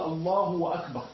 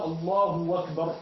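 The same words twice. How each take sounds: First: "الله أكبر" said "Allahu wa akbar", hamza kept; slowly insert "wa" between "الله" and "أكبر"; added voweled waw. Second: "الله أكبر" said slowly as "Allahu wakbar"; hamza turned to waw. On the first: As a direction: demonstrate an extra waw with a vowel before "أكبر". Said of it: "ساكنة أو متحركة". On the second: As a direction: replace the glottal stop of "أكبر" with a w. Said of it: "أبدل الهمزة واوا". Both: Shown as a demonstration.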